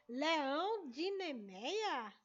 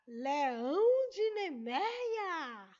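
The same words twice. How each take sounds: First: Said in the usual way. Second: Leão de Nemeia boomed out loud and very slow; dramatic announcement. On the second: Shown as a demonstration. Teacher dramatizes the comic for the class, booming slowly.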